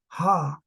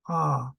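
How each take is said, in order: First: The syllable starts with a breathy h sound. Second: The syllable starts directly on the vowel. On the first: The speaker calls it wrong. "we don't go ha" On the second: The speaker calls it right. "we just go ah"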